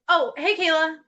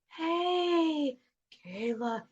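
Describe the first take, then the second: First: It is said in a casual, ordinary voice. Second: It is said in a creepy voice.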